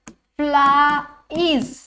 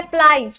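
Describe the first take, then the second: First: फ्लाइज pulled apart as "flaa", pause, "eez"; sounded out slowly. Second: Said in the usual way. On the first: Shown as a demonstration. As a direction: stretch फ्लाइज into two slow vowel sounds. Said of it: "किसकी sound". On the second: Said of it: "फ्लाइज में क्या करवा रही हूँ मैं".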